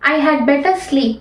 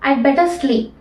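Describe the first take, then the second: First: The word 'had' is pronounced in full. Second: The word 'had' is dropped entirely. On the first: The speaker calls it wrong. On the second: The speaker calls it right.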